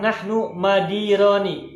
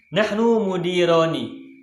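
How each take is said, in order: First: The second word begins with 'ma'. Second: The second word begins with 'mu'. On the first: The speaker calls it wrong. "ada yang baca atau yang menuliskan nahnu madironi, mimnya fathah" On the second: The speaker calls it right. "mimnya berharokat dhammah"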